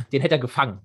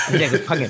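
First: Said in the usual way. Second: "Den" punched at the start, rest dropping; stress on Den. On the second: Shown as a demonstration. Podcaster repeating his point about the goalkeeper, stressing "Den". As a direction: lean hard on "Den".

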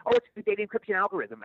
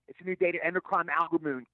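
First: "encryption" said cleanly and correctly; correct line. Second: "endocrine" said instead of "encryption"; flubbed line. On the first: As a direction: get "encryption" right at last. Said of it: "I read it off the card". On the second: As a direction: stumble into "endocrine" in place of "encryption". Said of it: "I kept screwing it up". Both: Retold or imitated.

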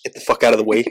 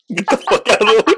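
First: Said in the usual way. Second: High, loud comic yell. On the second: Shown as a demonstration. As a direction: shout the warning. Repeated warning, yelled.

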